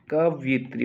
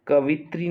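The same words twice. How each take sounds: First: कवित्री with a y glide, "kav-yi-tri"; correct pronunciation. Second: कवित्री said as "ka-vit-ri", no y; mispronounced word. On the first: Teacher correcting students, कवित्री as "kavyitri". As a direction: bring out the "yi" in कवित्री. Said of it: "कवित्री होता है". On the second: Teacher showing students the mistake, कवित्री as "kavitri". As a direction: skip the y sound in कवित्री. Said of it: "कवित्री नहीं होता है". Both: Shown as a demonstration.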